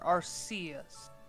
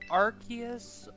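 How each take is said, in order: First: The C is a soft S sound, like arse. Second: The C is a hard K sound, like arc. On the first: "as an arse" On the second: "with a hard clack sound for the C, as in arc"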